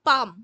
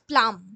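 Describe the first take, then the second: First: No L sound follows the P. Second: An L sound follows the P. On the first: The speaker calls it right. "এটার উচ্চারণটা কিন্তু পাম" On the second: The speaker calls it wrong. "Not প্লাম"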